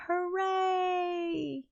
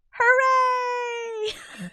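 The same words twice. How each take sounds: First: High but soft, limp little hooray; deflated hooray. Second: Very high, loud hammed-up hooray; mock cheer. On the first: Retold or imitated. Streamer tells the characters to stop being angry, then cheers limply. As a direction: let the cheer fizzle out. Mock cheer after calming everyone. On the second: Streamer mimics the characters' sudden joy with a squealing cheer. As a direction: throw it up like a cartoon celebration.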